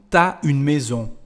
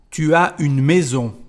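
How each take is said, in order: First: Tu and as merge into one syllable, t'as. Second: Tu and as are said as two syllables.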